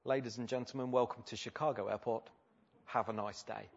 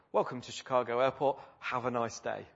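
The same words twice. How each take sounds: First: Understated, matter-of-fact pilot welcome; routine pilot announcement. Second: Lightly imitated chirpy captain's welcome; a touch of routine airline cheer; mildly cheery pilot. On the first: Retold or imitated. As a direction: say it softly, as if nothing had happened. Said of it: "back to his default setting". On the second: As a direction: welcome them lightly, as if all were fine. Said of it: "with quite a cheery voice".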